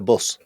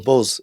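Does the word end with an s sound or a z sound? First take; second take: s; z. First: The word ends with an s sound. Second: The word ends with a z sound.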